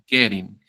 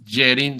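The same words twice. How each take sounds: First: The first g sounds hard, like in gato. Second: The first g sounds like an English j. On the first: The speaker calls it right. "sino getting" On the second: The speaker calls it wrong. "no es getting"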